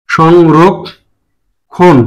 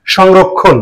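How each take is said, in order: First: সংরক্ষণ stretched very slowly as shongrokkhon; teacher drags out সংরক্ষণ as shongrokkhon; drawn-out model word. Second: Said in the usual way. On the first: Shown as a demonstration. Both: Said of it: "সঠিক উচ্চারণ হচ্ছে সংরক্ষণ".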